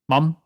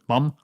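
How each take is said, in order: First: The vowel is a back 'ah', sounding like mom. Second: The same.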